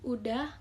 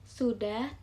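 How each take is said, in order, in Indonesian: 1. Kata ini diawali dengan bunyi vokal. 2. Kata ini diawali dengan bunyi s. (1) "Contoh lafal tidak baku" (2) "Contoh lafal baku"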